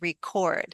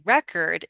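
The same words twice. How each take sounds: First: The stress is on the second syllable. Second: The stress is on the first syllable. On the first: It is used as a verb. "as a verb, we say record" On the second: It is used as a noun. "as a noun, we say record"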